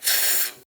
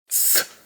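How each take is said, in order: First: The z is said as in Spain. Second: The z is said as in Latin America. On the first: "no se pronuncia como en España" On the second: "ni tampoco como en Latinoamérica"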